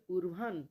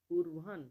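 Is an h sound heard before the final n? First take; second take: yes; yes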